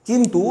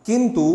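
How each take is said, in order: Both takes have the same delivery.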